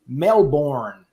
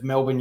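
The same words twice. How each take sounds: First: The R is pronounced hard and clearly. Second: The R is dropped, without a hard sound. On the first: The narrator does not sound authentically Australian. The speaker calls it wrong. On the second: The narrator sounds authentically Australian. The speaker calls it right.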